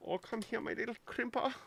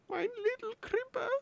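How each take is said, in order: First: High, quick coo; playful cooing. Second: Tiny, very high squeal; squeaky cooing. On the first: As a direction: coax it like a little pet. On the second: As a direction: coo it in a squeaky little voice. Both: Pretend. Cooing at a little crimper.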